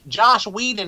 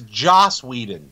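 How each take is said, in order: First: The first name ends with an 'sh' sound. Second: The first name ends with an 's' sound. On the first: The speaker calls it wrong. "Stop saying it wrong" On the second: The speaker calls it right. "it's Joss Whedon"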